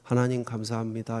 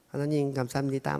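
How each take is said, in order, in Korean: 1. 또렷하고 정확한 발음으로 말하고 있습니다. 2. 아기처럼 혀짧은 소리를 내는 어린아이 목소리로 말하고 있습니다. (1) "정확한 발음으로" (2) "아기 때 목소리가 있어요"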